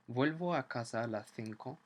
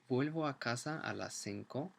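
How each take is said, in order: First: The c in cinco sounds like th. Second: The c in cinco sounds like s.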